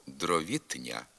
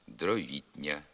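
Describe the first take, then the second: First: «дровітня» slowly, with т hard before ня; as written. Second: «дровітня» with т palatalized before ня; softened т. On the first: Teacher reading the spelling, hard т in «дровітня». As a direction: say «дровітня» with an unsoftened т. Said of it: "Пишемо". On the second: Teacher giving the pronunciation, soft т in «дровітня». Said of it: "а вимовляти слід". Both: Shown as a demonstration.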